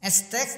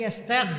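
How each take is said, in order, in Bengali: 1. ব্যঞ্জনটি একটি কঠিন k ধ্বনি। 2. ব্যঞ্জনটি একটি ঘোষ g-এর মতো ধ্বনি। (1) "কাফ" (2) "গাইনদ্দ গ"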